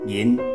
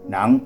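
First: It is given the literary reading-style Taiwanese reading. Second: It is given the colloquial everyday Taiwanese reading. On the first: This is the reading learned at school. "人就是文读音" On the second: This is the reading used in everyday speech at home. "人就是所谓的白话音"

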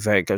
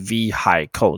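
First: The h sound in the middle is silent. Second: The h sound in the middle is pronounced. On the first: The speaker calls it right. "H 不发音" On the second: The speaker calls it wrong. "不要念成vehicle"

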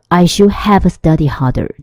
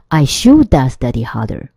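First: Should have is said as two full words. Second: Should have is squeezed into one word, shoulda.

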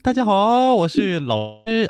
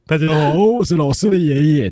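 First: It is said in the teacher's voice. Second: It is said in the grandfather's voice.

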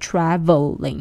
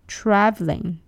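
First: The word is said with three full syllables. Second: The word is said with two syllables. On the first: "大概会给你三个音节" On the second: "它其实只有两个音节"

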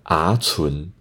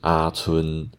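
First: Both syllables rise in pitch. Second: Both syllables stay on a flat mid pitch. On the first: "北四线腔的规则是不能讲啊存，啊存太难讲了" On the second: "它是啊存，都是中间的平调"

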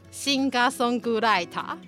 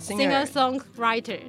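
First: It has added vowels and no curled r sounds. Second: It has no added vowels and English r sounds. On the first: "创作歌手要怎么说呢" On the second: "会英文的话"

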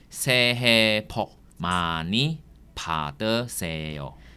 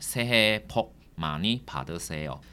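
First: The phrase is spoken slowly. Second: The phrase is spoken at normal speed.

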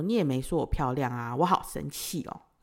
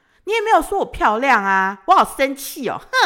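First: It sounds only a little angry. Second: It sounds much angrier and more forceful. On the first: The speaker calls it wrong. "我就有点生气的说" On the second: The speaker calls it right. "我应该更生气一点"

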